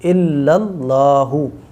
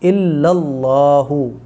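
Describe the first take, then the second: No difference in how they are said.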